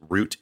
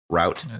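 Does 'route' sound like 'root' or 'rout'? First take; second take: root; rout. First: The word rhymes with boot. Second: The word rhymes with out. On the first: It names the root of a tree. "Route is a root of a tree" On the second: It names a road or a path. "Route is a road or a path"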